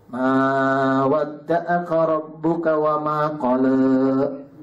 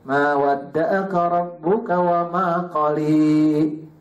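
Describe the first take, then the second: First: The final vowel is an e-like vowel. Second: The final vowel is a clear i vowel. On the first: "E-nya agak Melayu" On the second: "kalau yang ujungnya i"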